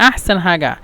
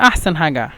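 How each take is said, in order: The two takes are said the same way.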